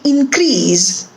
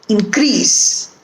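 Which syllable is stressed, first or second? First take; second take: first; second. First: The stress is on the first syllable. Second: The stress is on the second syllable. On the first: It is used as a noun. "the stress in the first word is on in, first syllable" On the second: It is used as a verb. "the syllable that is stressed is the second syllable"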